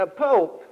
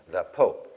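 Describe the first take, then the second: First: Higher and louder, in disbelief; incredulous echo. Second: Said in the usual way. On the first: Retold or imitated. Barber scoffing at the customer's plan to see the Pope, incredulous. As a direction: echo it back like it's absurd.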